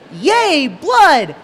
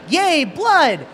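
First: It is said with noticeably more excitement. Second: It is said with only mild excitement. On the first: "you're more excited about that" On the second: "I just gave it a shot and went"

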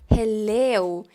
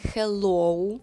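First: The final vowel is an exaggerated 'eh-oo' glide. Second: The final vowel is a rounded 'oh-oo' glide. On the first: The speaker calls it right. "Ми спочатку перебільшуємо" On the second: The speaker calls it wrong. "перетворюємо на більш характерний звук для нашої мови «оу»"

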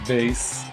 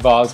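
First: The word is said in an everyday way. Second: The word is said in a fancy way. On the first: This is the usual way of saying it. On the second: The speaker is being posh.

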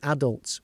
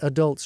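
First: The word is said the British way. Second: The word is said the American way. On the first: "which is the way we say it in the UK" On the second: "I've even said adults rather than"

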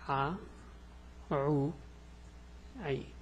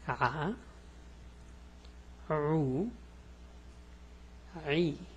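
First: The sounds are said quickly. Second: The sounds are said slowly. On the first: "This is fast" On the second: "let's go slow"

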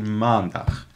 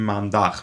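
First: The stress is on the first syllable. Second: The stress is on the second syllable. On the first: The speaker calls it right. "التركيز دائما على أول جزء" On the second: The speaker calls it wrong. "وما بتقول ... وليس على dag"

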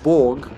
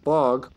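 First: The word is said with a Serbian pronunciation. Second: The word is said with an English pronunciation.

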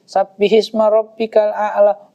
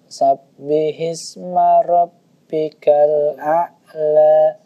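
First: It is recited at a normal, even pace. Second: It is recited slowly with long, drawn-out sounds.

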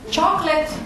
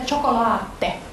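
First: It is said the usual English way. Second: It is said as four syllables: cho-co-la-te.

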